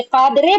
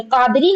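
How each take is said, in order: First: कादरे ending in an "ay" sound. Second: कादरी ending in an "ee" sound; ending in long ee. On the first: Teacher contrasting readings for students, कादरे with final e. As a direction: finish कादरे on e, not ee. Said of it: "कादरे पढ़ते". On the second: Teacher contrasting readings for students, कादरी with final ee. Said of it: "फिर कादरी नहीं पढ़ते". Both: Shown as a demonstration.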